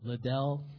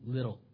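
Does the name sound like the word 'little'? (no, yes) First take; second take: no; yes. First: The name does not sound like 'little'. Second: The name sounds like the word 'little'. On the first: The speaker calls it wrong. "Some pronounce it Liddell or Liddell" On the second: The speaker calls it right. "It's little"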